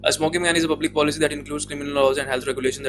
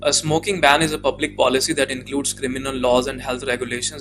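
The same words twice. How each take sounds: First: It is read quickly and hard to follow. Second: It is read at a steady, moderate speed. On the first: The scoring system cannot follow the reading. The speaker calls it wrong. "वो student ना ऐसे read करके आते हैं" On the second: The scoring system can easily follow the reading. The speaker calls it right. "Normal speed बिल्कुल आपने maintain किया है"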